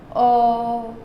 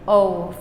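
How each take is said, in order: First: The vowel stays steady without a final w-glide. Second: The vowel ends by gliding into a w sound. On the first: The speaker calls it right. "stop before we end it with that W sound" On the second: The speaker calls it wrong. "don't let yourself go to O, O for English"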